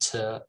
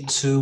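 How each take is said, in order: First: The word is said in a weak, reduced form. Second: The word is said in its full form. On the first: The speaker calls it right. "we just say to" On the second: The speaker calls it wrong. "we don't say to"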